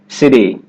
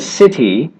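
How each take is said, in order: First: The middle t sounds like a quick d. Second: The middle t is a crisp t sound. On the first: "The flap T is really just a D sound" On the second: "Instead of a"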